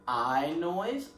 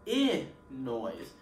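First: I said as a long eye sound. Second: I said as a short ih, as in it; short i sound. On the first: Teacher showing kids the long letter sound, the long eye sound. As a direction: say I like the word eye. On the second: Teacher contrasting the letter's other sound, the short ih. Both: Shown as a demonstration. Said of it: "I can either make the I noise or".

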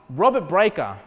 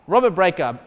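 No difference in how they are said.

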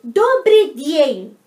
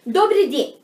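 First: Добрый день very slow and loud, vowels stretched out; slow teaching model. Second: Said in the usual way. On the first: Shown as a demonstration. (добрый день bem devagar e alto, alongando as sílabas) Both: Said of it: "você vai falar".

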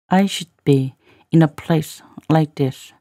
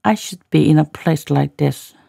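First: Pauses after "I should be" and "place"; careful model reading for learners. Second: Said in the usual way. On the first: Shown as a demonstration. Teacher repeats line in slow chunks.

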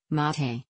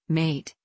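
First: "mate" in two syllables, MAH-tay; first-syllable accent. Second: Said in the usual way. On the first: Shown as a demonstration. Narrator giving the Spanish name of the drink, "mate" as MAH-tay. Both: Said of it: "with the accent on the first syllable".

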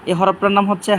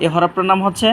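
Both takes have the same delivery.

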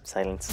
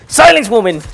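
First: Soft, low hushed repeat; quiet hush. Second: Loud, high mock tyrant bark; hammed-up villain command. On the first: Acted. Gamer to the woman again, softly hushing. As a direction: say it under your breath. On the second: Gamer to a noisy in-game woman, hammed-up tyrant shout. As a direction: boom it like a pompous villain.

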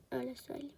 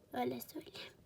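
First: Said in the usual way. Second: Whispered aside. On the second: Shown as a demonstration. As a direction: repeat it in a soft whisper.

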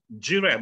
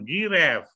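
First: Giraffe starting with a J sound; correct soft G. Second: Giraffe starting with a hard g, as "gi-reff"; wrong hard G. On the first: Teacher shows students the soft G, correct pronunciation. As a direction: say Giraffe as "ji-raff". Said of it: "kita bilang jerapah itu kan giraffe". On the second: Teacher shows students the mistake, hard G pronunciation. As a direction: mispronounce giraffe with g as in goat. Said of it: "bukan giraffe". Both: Shown as a demonstration.

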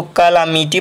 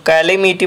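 First: "कालामिटी" with an "aa" in the second syllable, kaa-laa-mee-tee; variant pronunciation. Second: "कालीमिटी" with an "ee" or "ay" second syllable, not "laa"; variant pronunciation. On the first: Teacher showing how some people read the word, "कालामिटी" pronounced kaa-laa-mee-tee. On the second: Teacher showing another common reading, "कालीमिटी" pronounced ka-lee-mee-tee. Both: Shown as a demonstration. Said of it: "अलग-अलग pronunciation हो सकता है".

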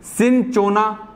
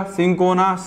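First: सिंचोना drawn out slowly, with च for the ch; ch pronunciation, slow. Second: सिंकोना with स and a plain क sound; k pronunciation. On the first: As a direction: say सिंचोना syllable by syllable. (धीरे-धीरे सिंचोना, च के साथ) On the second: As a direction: say सिंकोना, with a क in the middle. (क वाला सिंकोना) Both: Shown as a demonstration. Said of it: "कोई पढ़ेगा".

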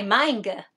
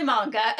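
First: "manga" with a flat first vowel, as MANG-guh; "manga" said MAING-guh, not MAHN-guh; own pronunciation. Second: "manga" said MAHN-guh; "manga" as MAHN-guh, rhyming its start with "con"; probable correct pronunciation. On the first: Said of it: "Well, I say manga". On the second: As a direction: say "manga" with an open "ah" first vowel. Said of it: "It's probably manga". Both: Shown as a demonstration.

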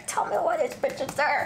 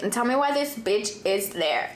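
First: Higher, incredulous repeat; exasperated repeat. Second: Said in the usual way. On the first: Shown as a demonstration. Repeating her disbelief that the girl is in the car, higher and incredulous. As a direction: say it again in disbelief.

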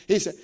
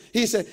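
The two takes are said the same way.

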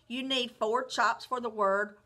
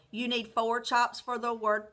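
The two takes are said the same way.

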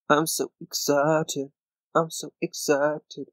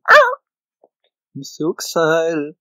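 First: Said in the usual way. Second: Drawn-out, louder singsong "I'm so excited"; mock excitement. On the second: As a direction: stretch it slowly like a cheesy song.

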